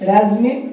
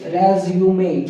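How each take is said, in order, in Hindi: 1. 'rez' के बाद 'yu' की आवाज़ के बिना बोला जाता है। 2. 'rez' के बाद 'yu' की आवाज़ के साथ बोला जाता है। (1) "अमेरिकन में इसको बोला जाता है रेजमे" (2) "ब्रिटिश की अगर बात करें इसको बोला जाता है रेज्यूमे"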